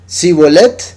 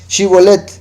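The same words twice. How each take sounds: First: The word begins with a plain 's' sound. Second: The word begins with a 'sh' sound. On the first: The speaker is from Ephraim. The speaker calls it wrong. "porque no podía pronunciarlo correctamente" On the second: The speaker is from Gilead. The speaker calls it right. "dígame esta palabrita"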